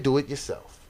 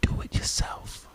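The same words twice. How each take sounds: First: Said in the usual way. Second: Whispered, drawn-out retort to the team; hushed coach. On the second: Retold or imitated. Coach tells the team to run it themselves, whispered. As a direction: whisper it slowly, like a coach giving up.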